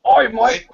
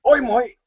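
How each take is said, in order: First: Mock Aussie greeting. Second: Mock Australian "Oi, mate" pitched much higher; hammed-up Australian oi. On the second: Teasing the Aussie in the voice chat with a mock Australian oi. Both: Shown as a demonstration. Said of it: "don't people in Australia say, "Oi"?".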